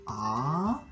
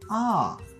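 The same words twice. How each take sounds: First: It is said with the second Mandarin tone. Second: It is said with the fourth Mandarin tone. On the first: "Pour le deuxième" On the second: "Quatrième"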